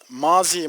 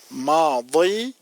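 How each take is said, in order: First: The middle consonant is a plain z sound. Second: The middle consonant is an emphatic d sound. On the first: This is the common Turkish way of saying it. "Araplar bunu telaffuz ederken mazi, muzari diye ifade etmezler" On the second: This is how Arabs say it. "Madi, mudari şeklinde telaffuz ederler"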